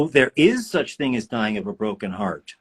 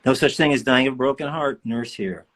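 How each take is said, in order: First: "is" lifted and leaned on; stress on IS. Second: Said in the usual way. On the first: Real, not acted. Reading a nurse's comment aloud, stress on "is". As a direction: put the weight on "is".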